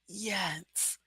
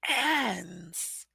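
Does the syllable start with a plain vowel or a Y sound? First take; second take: Y sound; plain vowel. First: The syllable starts with a Y and short E. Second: The syllable starts with a plain 'a' vowel. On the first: The speaker calls it right. "I add a Y in front" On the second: The speaker calls it wrong. "It looks like an"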